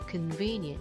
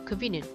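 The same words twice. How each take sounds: First: The middle vowel is said long. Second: The middle vowel is said short. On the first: The speaker calls it right. "이 부분이 장모음이에요" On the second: The speaker calls it wrong. "이게 아니라"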